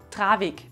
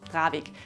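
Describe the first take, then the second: First: The word starts with a hard T sound. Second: The word starts with a soft D sound. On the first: "mit T, also Travik, geschrieben" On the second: "klingt es eher wie ein D"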